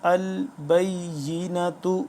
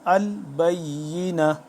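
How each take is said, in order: First: The word ends with a 't' and short vowel. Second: The word ends on an open 'a' sound. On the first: The reading continues on. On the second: The reading stops at this word.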